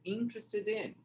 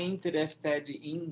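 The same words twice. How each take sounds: First: The final d runs straight into 'in'. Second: The final d is kept apart from 'in'. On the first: The speaker calls it right. "é interested in" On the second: The speaker calls it wrong. "não é interested in"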